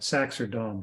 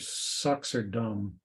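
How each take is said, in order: First: The first word has an 'a' vowel, like sax. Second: The first word has an 'uh' vowel, like sucks. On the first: The speaker calls it right. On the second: The speaker calls it wrong. "one of our employees with a Russian accent would call them Sux and Dom"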